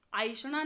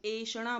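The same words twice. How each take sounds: First: आइषणा with a gliding "aai" at the start; wrong vowel. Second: एषणा with a pure, clear "e" at the start; correct vowel. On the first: Teacher showing students the wrong way: आइषणा with an "aai" glide. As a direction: say आइषणा as the mistaken "aai-shana". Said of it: "आइषणा नहीं बोल रही हूँ". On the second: Teacher giving students the right form: एषणा with a pure "e". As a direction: say एषणा cleanly as "e-shana". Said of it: "एषणा बोल रही हूँ". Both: Shown as a demonstration.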